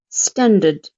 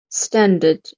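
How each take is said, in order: The two takes are said the same way.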